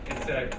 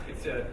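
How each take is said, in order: Both takes have the same delivery.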